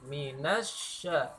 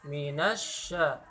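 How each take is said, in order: The two takes are said the same way.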